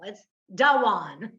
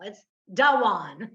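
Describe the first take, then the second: First: The name has two syllables, Southern style. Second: The name has two syllables, Southern style.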